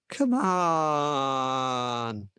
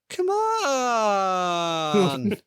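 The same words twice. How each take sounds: First: It is said in a plain tone. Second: It is said in a whiny tone.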